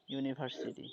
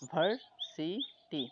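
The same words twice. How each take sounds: First: Said in the usual way. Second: "ইউনিভার্সিটি" slowly as iu, ni, bhar, si, ti; five separated beats on "ইউনিভার্সিটি"; syllable by syllable. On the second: Shown as a demonstration. Teacher counting syllables for students, "ইউনিভার্সিটি" slowly split into five. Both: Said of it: "এখানে পাঁচটা".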